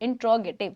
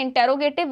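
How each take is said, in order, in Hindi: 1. 'in' के बाद का स्वर दबकर लगभग गायब हो जाता है। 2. 'inter' वाले हिस्से के बाद एक पूरा स्वर आता है। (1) "the correct pronunciation is इंट्रोगेटिव" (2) "which is the incorrect pronunciation"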